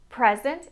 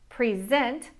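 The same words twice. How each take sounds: First: The stress is on the first syllable. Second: The stress is on the second syllable. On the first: It is used as a noun. "Present is a noun. ... with nouns, the stress is in the first syllable" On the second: It is used as a verb. "Present is a verb. ... verbs, the stress is in the second syllable"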